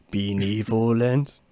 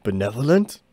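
First: "Benevolent" slowly stretched as bee-nee-vo-lend; slow, puzzled "Benevolent", syllable by syllable; sounded-out word. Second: Said in the usual way. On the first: Shown as a demonstration. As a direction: draw out "Benevolent" with long ee vowels. Repeats the word, drawn out, altered vowels.

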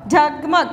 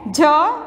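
First: "झगमग" short, as one word; all together. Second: "झगमग" as separate letter sounds with pauses. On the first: Teacher models reading, "झगमग" all together. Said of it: "पूरा एक साथ में पढ़ना है". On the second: Teacher introduces a word to pupils, "झगमग" letter by letter. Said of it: "आप slowly पढ़ सकते हो". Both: Shown as a demonstration.

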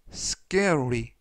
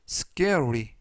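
Both takes have the same delivery.

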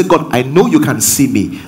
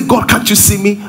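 First: Calm, settled statement of trust; assured. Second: Higher-pitched, questioning plea; doubting question to God. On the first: Preacher shows words that bring assurance, calmly confident. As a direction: say it as steady certainty to God. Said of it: "one will bring you assurance". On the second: Preacher shows words that bring fear, doubtful plea. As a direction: lift it into a mildly anxious question. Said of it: "One is going to bring you fear". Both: Shown as a demonstration.

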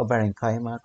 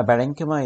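First: بارينكايما said with a long ai diphthong before ma; the teacher's preferred form بارينكايما, ai sound; the other pronunciation. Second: بارينكيما said with a short ee before ma; the teacher gives the first variant بارينكيما; one pronunciation. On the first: Teacher giving her own variant, بارينكايما with ai. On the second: Teacher naming the common variant, بارينكيما with ee. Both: Shown as a demonstration. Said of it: "في ناس بتنطقها كده وفي ناس بتنطقها كده".

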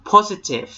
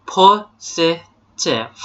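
First: Said in the usual way. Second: Positive broken slowly into po-si-tive; syllable-by-syllable model. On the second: Shown as a demonstration. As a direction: sound out positive for students, one syllable at a time. (positive แยกทีละพยางค์ช้า ๆ โพ-สิ-ทีฟ) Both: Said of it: "ออกเสียงครับ".

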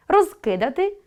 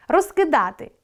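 First: Розкидати with stress on роз, rising; Розкидати, hit роз. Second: Розкидати with stress on да, falling; Розкидати, lean on да. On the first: Teacher checking the perfective, stress on роз. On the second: Teacher checking the imperfective, stress on да. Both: Shown as a demonstration. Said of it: "Наголос допомагає розрізняти вид".

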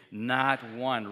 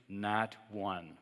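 First: NOT one, said loud and firm; preacher urges an emphatic response, loud. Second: Said in the usual way. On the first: Shown as a demonstration. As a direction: punch "Not one" with force. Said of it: "Say it emphatically". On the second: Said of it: "Say it after me".

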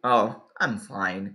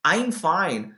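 First: Low, slow, reluctant "oh, I'm fine"; not really fine. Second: Said in the usual way. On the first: Shown as a demonstration. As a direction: say you're okay when you really aren't. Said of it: "mas na verdade". ("I'm fine" arrastado, de quem não está bem) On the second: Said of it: "na maioria das vezes que os nativos utilizam".

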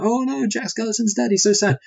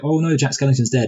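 First: High, hammed-up fake wail over "dead"; squeaky fake grief, pitched way up; mock crying mayor. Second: A hint of fake sobbing, barely raised; understated pretend grief, mostly own voice; lightly mock crying mayor. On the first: Mayor hams up fake tears over Jack, squealing high. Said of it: "he's crying". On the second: Mayor fakes tears for Jack, lightly mock sad. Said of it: "crying and he's like".

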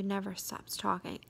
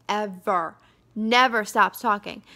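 First: Said in the usual way. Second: "ever, never stops talking" punched much louder; emphatic repeat. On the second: Real, not acted. Venting about a coworker who won't stop chatting, emphatic. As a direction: hit EVER and NEVER hard and loud.

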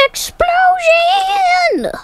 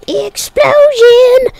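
First: High, slow drawn-out shout. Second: Breathy unvoiced whisper, slow. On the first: Pretend. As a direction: yell it out with glee. Shouting game wish. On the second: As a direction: hiss it like a secret. Repeat in other manner.

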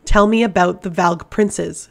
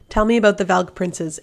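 First: Louder and slow, each word "Tell" pressed hard; commanding order. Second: Said in the usual way. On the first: A narrator's reading. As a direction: lay it down as a command, slowly. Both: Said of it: "she ordered".

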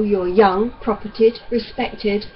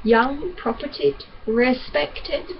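First: Said in the usual way. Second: Sneering, questioning repeat of each word; bitter mockery of the doctor's praise; mocking echo. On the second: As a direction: throw his words back at him. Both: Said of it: "what were those gracious words you used?".

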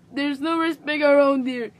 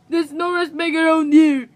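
First: Grandma complains to all around her, grumbling; aggrieved, at a moderate volume; grumbled complaint. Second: Grandma repeats her grievance to be heard, complaining louder; slightly raised, aggrieved cry; raised complaint. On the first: First, more contained protest. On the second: Push the protest up and out. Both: Acted.

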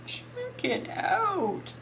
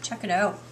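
First: Very slow, high-pitched show-off line; drawn-out admiration. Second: Said in the usual way. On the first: Real, not acted. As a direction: stretch CHECK IT OUT right out, pitched high.

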